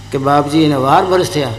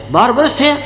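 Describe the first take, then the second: First: Meek disciple. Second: Higher astonished echo of વર્ષ; surprised guru. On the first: Disciple telling his guru how long, low and humble. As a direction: confess it humbly, voice dropped. Disciple admits twelve years. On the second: Guru echoing the disciple's answer, surprised and higher. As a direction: repeat it back in disbelief. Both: Acted.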